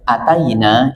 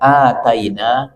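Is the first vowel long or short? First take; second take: short; long. First: The first vowel is kept short. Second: The first vowel is held long. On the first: We came. "kalau hanya pendek" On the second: We gave it. "Jadi hanya panjang"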